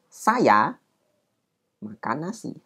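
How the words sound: There is a short pause after 'saya'.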